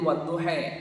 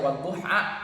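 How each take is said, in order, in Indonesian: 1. Vokal akhirnya condong ke bunyi e. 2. Vokal akhirnya adalah bunyi a yang terbuka. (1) "bisanya E" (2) "tidak bisa menyebutkan A"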